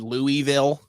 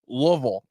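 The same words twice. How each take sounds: First: The middle syllable is fully pronounced. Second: The middle syllable is dropped. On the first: The speaker calls it wrong. "I said it wrong" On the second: The speaker calls it right. "they dropped the whole midsection of the word"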